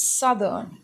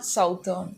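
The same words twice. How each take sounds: First: Southern slowly as SUTH-ern; correct pronunciation. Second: Southern said SOUTH-ern, with an ow; wrong pronunciation. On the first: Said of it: "It's southern". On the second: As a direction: mispronounce southern with ow, SOWT-ern. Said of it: "It's not southern". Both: Shown as a demonstration.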